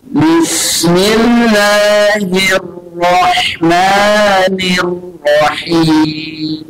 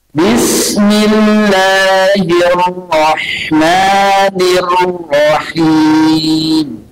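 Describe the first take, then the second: No difference in how they are said.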